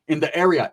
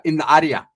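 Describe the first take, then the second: First: Said in the usual way. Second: Área said the Spanish way, a-DE-a. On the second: Shown as a demonstration. Correcting area to Spanish área, Spanish sounds.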